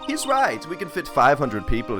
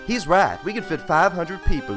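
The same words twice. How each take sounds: First: It is said without a Southern accent. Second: It is said with a Southern accent. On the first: The speaker calls it wrong. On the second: The speaker calls it right.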